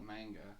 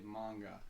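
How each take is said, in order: First: It is said the plain, spelling-based English way. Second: It is said the way fans consider authentic. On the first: The speaker does not read the comics. "people I've heard that don't read it call it manga" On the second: The speaker reads the comics and wants to be correct. "people who do read it and want the sound correct say manga"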